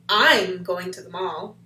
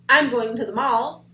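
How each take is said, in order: First: The word "I'm" is louder than the rest. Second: No word stands out strongly.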